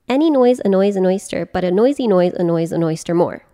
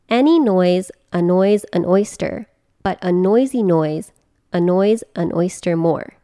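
First: It is said at a faster pace. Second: It is said at a slower pace.

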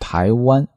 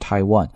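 First: It is said with Mandarin tones. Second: It is said without Mandarin tones. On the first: "那我们中国人读呢" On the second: "这是外国人在读"

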